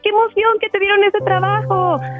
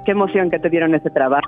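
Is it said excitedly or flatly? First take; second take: excitedly; flatly. First: It is said excitedly, with a high voice. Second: It is said flatly, without emotion.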